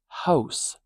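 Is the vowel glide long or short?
short. The vowel makes a shorter, less extreme glide. "it's not as extreme a glide"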